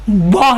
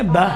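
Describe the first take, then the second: First: با with rounded vowel, "boh"; wrongly heavy. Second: با with open unrounded "baa"; plain thin alif in با; thin, light. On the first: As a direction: round the lips on با. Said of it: "با نہیں کہیں گے". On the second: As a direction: narrow light با. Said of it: "کیا کہیں گے؟". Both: Shown as a demonstration.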